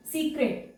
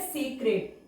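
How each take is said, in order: First: सीक्रेट said as "see-kret" with a long ee; teacher shows the misreading सीक्रेट, long ee; wrong reading secret. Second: सेक्रेट said as "se-kret" with a short e; teacher gives the right word सेक्रेट, short e; correct reading secreted. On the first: Teacher contrasts wrong outline, सीक्रेट with long ee. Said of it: "ये तो सीक्रेट हो गया". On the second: Teacher corrects the student, सेक्रेट with short e. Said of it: "लेकिन word है सेक्रेट". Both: Shown as a demonstration.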